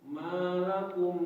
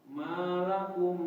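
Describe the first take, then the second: Both takes have the same delivery.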